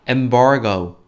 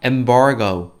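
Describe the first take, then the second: First: It is said with English sounds and stress. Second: The same.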